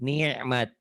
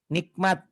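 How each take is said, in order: First: The middle consonant is a throaty glottal catch. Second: The middle consonant is a clear 'k' sound. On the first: The speaker calls it right. "padahal bukan ya, ain" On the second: The speaker calls it wrong. "orang-orang kadang-kadang bilang nikmat itu pakai ka"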